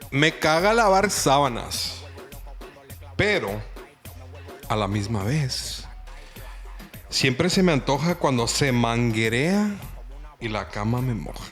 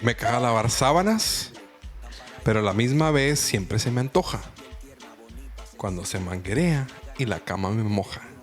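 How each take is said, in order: First: It is said at normal speed. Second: It is said fast.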